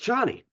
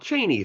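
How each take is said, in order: First: The name sounds like Chani. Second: The name sounds like Cheney. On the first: The speaker calls it right. "It's Chani, as we discovered now" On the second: The speaker calls it wrong. "who we called Cheney throughout the last video"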